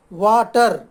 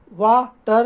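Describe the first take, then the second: First: Said in the usual way. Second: water split as वा, pause, टर; pause between syllables. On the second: Shown as a demonstration. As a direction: say water in two separate beats, stopping after वा. (Water को वा पर रुककर, फिर टर बोलें) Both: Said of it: "बीच में रुकना पड़ता है".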